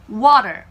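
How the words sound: It is said in an American accent. "미국식 물입니다"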